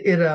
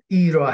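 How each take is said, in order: First: The first vowel sounds like 'eh'. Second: The first vowel sounds like 'ee'. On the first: The speaker calls it wrong. "옛날에 에라 했는데 에라 하면 못 알아듣더라고" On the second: The speaker calls it right. "이라 해야지"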